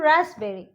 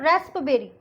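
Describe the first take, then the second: First: The p sound is silent. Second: The p sound is pronounced. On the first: The speaker calls it right. "यहाँ पे हो जाएगा पी silent" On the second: The speaker calls it wrong. "लेकिन ऐसे नहीं"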